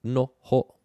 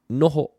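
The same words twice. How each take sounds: First: "noho" in two separate beats, no - ho; split into syllables. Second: Said in the usual way. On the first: Shown as a demonstration. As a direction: break "noho" apart with a gap between no and ho. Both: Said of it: "two syllables".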